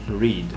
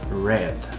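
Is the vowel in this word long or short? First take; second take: long; short. First: The vowel is long, like in 'reed'. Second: The vowel is short, like in 'red'. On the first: It is the present tense. "In the present" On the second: It is the past tense or present perfect. "In the past or in the present perfect"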